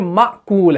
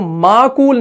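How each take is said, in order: First: The first syllable closes with a glottal stop. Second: The first vowel is long, with no glottal stop. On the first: The speaker calls it right. "ये माकूल है" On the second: The speaker calls it wrong. "माकूल नहीं है ये"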